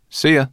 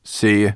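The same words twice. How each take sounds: First: Put-on high, loud boyish farewell; raised, easy send-off; Ben's cheerful goodbye. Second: Offhand, muttered send-off; murmured reply. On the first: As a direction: call a light goodbye. Ben's goodbye, against Sorrel's murmured reply. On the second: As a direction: mumble goodbye while settling to sleep. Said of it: "murmured Sorrel". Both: A narrator's reading.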